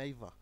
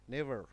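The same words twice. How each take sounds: First: It is said in a British accent. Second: It is said in an American accent.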